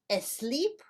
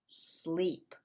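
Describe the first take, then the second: First: An extra e sound comes before the s. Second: The word starts directly with the s sound. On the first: The speaker calls it wrong. "Is it asleep or is it sleep?" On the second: The speaker calls it right. "It's sleep"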